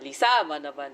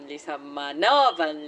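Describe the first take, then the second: First: The stress is on the second syllable. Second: The stress is on the fourth syllable.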